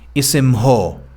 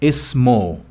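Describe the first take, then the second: First: An h sound is pronounced before the o. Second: The ending is a plain o, no h. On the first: The speaker calls it wrong. "they clarify the ha in dialect, which is wrong" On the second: The speaker calls it right. "No, no, no. Ismo"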